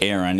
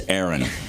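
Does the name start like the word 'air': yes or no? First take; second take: no; yes. First: The name does not start like 'air'. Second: The name starts like the word 'air'. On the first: The speaker calls it wrong. "It's not Aaron" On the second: The speaker calls it right. "It's Aaron. ... think of aeronautics"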